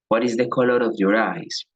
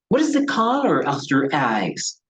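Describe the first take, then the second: First: The pitch stays flat and monotone. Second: The pitch moves with lively, varied tones. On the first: The speaker seems uninterested. The speaker calls it wrong. "No se pregunta así" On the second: The speaker shows interest. The speaker calls it right. "utilizamos los tonos de voz"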